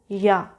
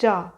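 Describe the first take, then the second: First: The word begins with a Y sound. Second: The word begins with an English J sound. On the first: The speaker calls it right. "But no, it is Ya" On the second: The speaker calls it wrong. "if they don't know how to give the sound of J, they will say it is Ja"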